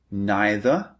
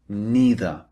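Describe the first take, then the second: First: Neither with a long "eye" vowel, NYE-ther; alternative pronunciation. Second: Neither with an "ee" vowel, NEE-ther; alternative pronunciation. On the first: Teacher showing learners the first option, neither pronounced NYE-ther. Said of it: "alternative pronunciations". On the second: Teacher showing learners the second option, neither pronounced NEE-ther. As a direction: say neither slowly as NEE-ther, falling at the end. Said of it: "These are the two alternatives". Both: Shown as a demonstration.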